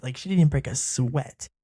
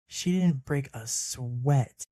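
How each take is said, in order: First: Said in the usual way. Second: "She didn't break a sweat" slowed right down, each word weighted; slow emphatic repeat. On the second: Real, not acted.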